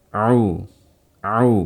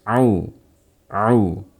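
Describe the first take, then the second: Both takes have the same delivery.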